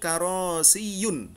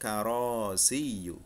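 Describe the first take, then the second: First: The word ends with an added n sound. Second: The word ends on a vowel, without n. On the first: The speaker calls it wrong. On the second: The speaker calls it right. "Yang benar yang benar adalah"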